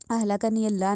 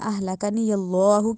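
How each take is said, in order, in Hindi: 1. अल्लाह में L हल्का और पतला है। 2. अल्लाह में L भारी और मोटा है। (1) "नहीं कहना" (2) "उस अल्लाह को मोटा करते हैं"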